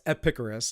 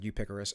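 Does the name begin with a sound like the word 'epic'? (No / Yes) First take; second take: Yes; No. First: The name begins like the word 'epic'. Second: The name does not begin like 'epic'. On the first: The speaker calls it right. "it's Epicurus, like epic, right?" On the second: The speaker calls it wrong. "I don't know why I said Eupicorus"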